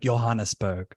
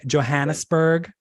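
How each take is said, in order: First: The name begins with a soft J sound. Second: The name begins with a hard J sound. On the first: "thought it was like" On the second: "Is that okay to say it with a with a hard J?"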